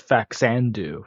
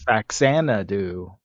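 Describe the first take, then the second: First: The middle syllable 'na' is left out. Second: The middle syllable 'na' is fully said. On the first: The speaker calls it wrong. "I thought it was Faxandu for the longest time" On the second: The speaker calls it right. "but it's Faxanadu"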